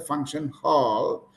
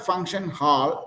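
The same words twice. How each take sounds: First: The vowel sounds like 'or' as in door. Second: The vowel sounds like 'ar' as in car. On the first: The speaker calls it right. "it's a function hall" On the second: The speaker calls it wrong. "It is not a function hall"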